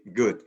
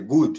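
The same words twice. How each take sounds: First: The vowel is said with unrounded lips. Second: The vowel is said with rounded lips. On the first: The speaker calls it right. "Your lips remain horizontal and you say good" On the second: The speaker calls it wrong. "we don't say good"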